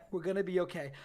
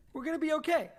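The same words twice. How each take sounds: First: Said in the usual way. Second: High, pleading reassurance; reassuring. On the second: Acted. Brad comforting Mac, higher, pleading reassurance. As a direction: talk yourself into calm, up high.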